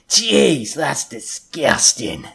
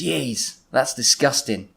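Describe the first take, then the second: First: It is said in a leering, lecherous way. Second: It is said in a plain, neutral way.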